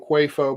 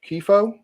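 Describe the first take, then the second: First: The name begins with a 'kwah' sound. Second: The name begins with a 'kee' sound. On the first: The speaker calls it wrong. "I keep trying to call him Quafo" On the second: The speaker calls it right. "but I think it's Kifo"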